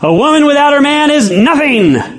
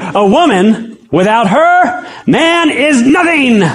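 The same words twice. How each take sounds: First: It is said in one phrase without pauses. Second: It is said with pauses after 'woman' and 'her'.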